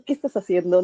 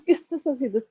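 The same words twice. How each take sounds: First: Said in the usual way. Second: A chuckle, then "¿Qué estás haciendo?" pitched higher; laughing at herself. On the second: Retold or imitated. Mother catching herself controlling, laughing. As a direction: tease yourself through a laugh. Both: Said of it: "y me da risa".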